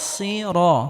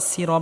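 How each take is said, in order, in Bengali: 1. 's' ভারী এবং মোটা। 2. 's' হালকা এবং পাতলা। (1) "স্বাদ মোটা হবে" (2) "এখানে সিন বলা যাবে না, সিরা বলা যাবে না"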